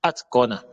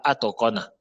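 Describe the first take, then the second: First: Atqana as "at-kona", T only half out, no vowel; sound half released. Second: Atqana as "ato-kona", full vowel after T; wrong full release. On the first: Teacher correcting learners, T half sounded. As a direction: stop the T lightly, then qana. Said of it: "mais ça sort à moitié". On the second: Teacher showing the mistake, T fully sounded. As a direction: give the T its own syllable before qana. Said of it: "on ne dit pas atqana". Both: Shown as a demonstration.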